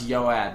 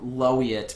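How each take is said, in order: First: The name begins with a Y sound. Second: The name begins with an L sound. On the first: The speaker calls it right. "It's pronounced Yoat" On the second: The speaker calls it wrong. "people say low Lowiet because they don't know that a capital I is actually not a lowercase L"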